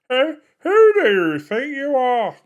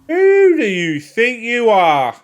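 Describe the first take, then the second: First: It is said as an Alan Partridge impression. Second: It is said in his own voice.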